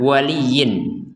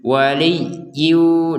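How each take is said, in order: First: The word ends with a clear n sound. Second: The n merges into a nasal hum. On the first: This is the original form before merging. "asalnya adalah waliyin" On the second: This is how it is read joined to the next word. "disertai dengungan"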